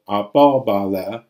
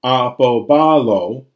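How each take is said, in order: First: Apobale said slowly, stress back on the po; recessive accent. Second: Apobalo, slow and loud, stress on ba; accent pulled forward. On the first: Teacher showing the accent recede, apobale slowly stressed on po. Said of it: "recede all the way back". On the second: Teacher showing omega pulls it forward, apobalo slowly stressed on ba. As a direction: lean hard on the ba in apobalo, drawing it out. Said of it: "omega pulls it forward". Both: Shown as a demonstration.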